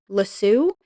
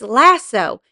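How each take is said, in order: First: The word ends with a long oo sound. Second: The word ends with an oh sound. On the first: This is how the British say it. The speaker calls it wrong. "you guys all go "lassoo,"" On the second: This is the correct way to say it. The speaker calls it right. "It's "lasso.""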